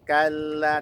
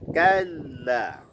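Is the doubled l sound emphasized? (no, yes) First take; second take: no; yes. First: The doubled l gets no extra emphasis. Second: The doubled l gets clear extra emphasis. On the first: The speaker calls it wrong. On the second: The speaker calls it right. "berikan nabroh pada lamnya kalla"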